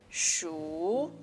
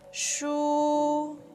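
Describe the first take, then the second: First: The pitch rises through the syllable. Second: The pitch stays high and level. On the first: "It's a rising tone" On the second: "is high and flat"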